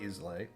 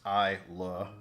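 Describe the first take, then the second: First: The word ends with an 'ay' sound. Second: The word ends with an 'ah' sound. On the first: The speaker calls it wrong. "not Islay" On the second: The speaker calls it right. "pronounced Isla"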